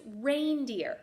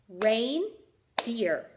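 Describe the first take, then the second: First: Said in the usual way. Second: "Reindeer" broken into rein, pause, deer; teacher counting out the two syllables of "Reindeer"; split into syllables. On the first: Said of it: "when we say the word". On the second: Shown as a demonstration. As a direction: say "Reindeer" in two separate beats. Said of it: "That has two syllables".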